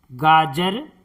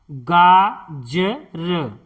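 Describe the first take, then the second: First: Said in the usual way. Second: गाजर drawn out slowly as गा-ज-र; slow syllable-by-syllable. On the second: Shown as a demonstration. Teacher sounding out गाजर for pupils, slowly. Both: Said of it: "इस तरह से".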